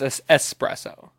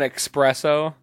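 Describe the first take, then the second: First: The word begins with an 'ess' sound. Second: The word begins with an 'ex' sound. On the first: The speaker calls it right. "it's espresso" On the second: The speaker calls it wrong. "when people say espresso"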